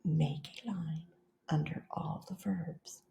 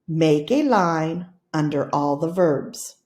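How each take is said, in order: First: Whispered, soft, just breath. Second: Grouped into phrases with small breaks. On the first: Teacher whispers the class's turn, very softly. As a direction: whisper it back like the class would. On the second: Teacher models the phrases for the class, phrase by phrase. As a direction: chunk it into phrases. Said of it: "I'm going to say it with phrases". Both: Shown as a demonstration.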